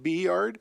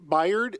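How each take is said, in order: First: It is said as the letter B, then 'yard'. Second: It is said as one blended word. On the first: "others pronounce it B Yard" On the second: "some people pronounce it Byard"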